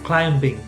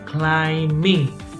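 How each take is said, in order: First: A B sound is heard after the M. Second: No B sound is heard after the M. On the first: The speaker calls it wrong. "not climbing" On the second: The speaker calls it right. "The B is silent. So for example, we say climbing"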